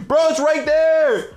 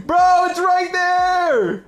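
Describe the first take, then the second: First: Slow, high exasperated plea; drawn out in disbelief; panicking gamer. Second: High, slow, shouted desperation; panicking gamer. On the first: Teammate can't see item. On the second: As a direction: yell it out, stretched and frantic. Teammate still can't see it. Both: Real, not acted.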